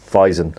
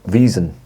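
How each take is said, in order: First: The first vowel sounds like 'eye'. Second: The first vowel sounds like 'ee'. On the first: The speaker calls it wrong. "sorry, it's pronounced Wiesen" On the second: The speaker calls it right. "it's pronounced Wiesen, Wiesen, I should say"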